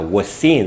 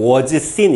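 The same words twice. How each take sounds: First: The two s sounds merge into one long s. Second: The two s sounds are said separately. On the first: The speaker calls it right. "S가 두 번 겹치면 이 발음을 길게 한 번만 합니다" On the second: The speaker calls it wrong. "원어민들 발음하는 거 보면 was seen 이렇게 안 하거든요"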